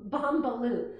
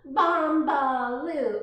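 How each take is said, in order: First: Said in the usual way. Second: Bombaloo drawn out slow and loud; stretched Bombaloo. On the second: Shown as a demonstration. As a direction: say Bombaloo slowly with weight.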